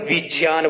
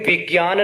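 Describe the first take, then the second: First: The cluster is said with a j sound. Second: The cluster is said with a g sound. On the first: This is the Sanskrit pronunciation. The speaker calls it right. "विज्ञान बोला जाता है" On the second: This is the everyday Hindi pronunciation. The speaker calls it wrong. "Sanskrit में विज्ञान ना बोलकर"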